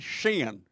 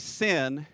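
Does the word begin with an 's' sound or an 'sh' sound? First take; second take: sh; s. First: The word begins with an 'sh' sound. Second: The word begins with a plain 's' sound. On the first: "in Texas, we don't say sin. We say shin" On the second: "in Texas, we don't say sin"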